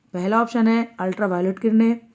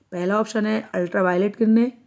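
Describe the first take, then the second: The two takes are said the same way.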